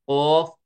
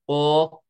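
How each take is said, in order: The two takes are said the same way.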